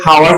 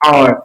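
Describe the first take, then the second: First: The word begins with a sounded h. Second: The word begins with a vowel, no h. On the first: The speaker calls it wrong. "হাওয়ার বলতেছি না" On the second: The speaker calls it right. "বলতেছি আওয়ার"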